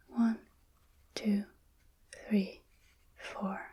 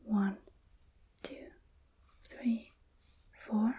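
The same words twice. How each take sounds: The two takes are said the same way.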